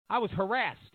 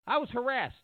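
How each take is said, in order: First: Said in the usual way. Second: Pitched higher, insisting on it; emphatic repeat. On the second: Retold or imitated. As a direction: repeat it like he means it. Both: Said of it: "Doctor Drew's come out and said".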